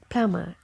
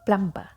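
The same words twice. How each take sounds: First: The b sound is left silent. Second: The b sound is clearly pronounced. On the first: The speaker calls it right. "But this letter is silent. So the correct pronunciation of this word is plumber" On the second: The speaker calls it wrong. "And they emphasize this letter"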